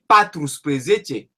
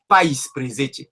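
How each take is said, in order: First: The word keeps its full first part, patru. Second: The word starts with the shortened form, pai. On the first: "si tu dis patrus presece, c'est pas c'est pas faux" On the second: "pour la facilité de prononciation, ils disent pais presece"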